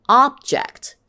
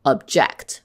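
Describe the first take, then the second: First: "Object" as OB-ject, first syllable high and loud; noun stress. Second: "object" as ub-JECT; verb stress. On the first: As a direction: punch the start of "Object". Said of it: "same word in a different part of speech". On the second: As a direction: stress the second syllable of "object". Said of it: "could be pronounced differently". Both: Shown as a demonstration.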